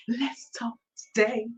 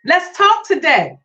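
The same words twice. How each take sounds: First: Breathy secret whisper, no voice. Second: Said in the usual way. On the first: Shown as a demonstration. Teasing the listeners by whispering the show's opener. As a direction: lean in and whisper it. Whispered then repeated aloud.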